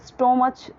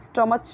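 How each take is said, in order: First: It has an 'oh' vowel and ends in 'ch'. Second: It has an 'uh' vowel and ends in 'ch'. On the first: "या फिर स्टोमच तो भी wrong हो जाएगा" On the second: "अगर इसे स्टमच बोले तो ये रॉन्ग हो जाएगा"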